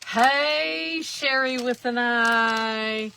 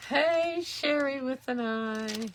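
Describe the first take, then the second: First: High, loud, drawn-out hello; excited greeting. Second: High, drawn-out hello; cheerful greeting. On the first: Greeting a viewer by name, high and loud. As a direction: call out her name like a cheerful shout-out. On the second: Repeating the viewer greeting, high and bright. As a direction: sing out her name warmly. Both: Real, not acted.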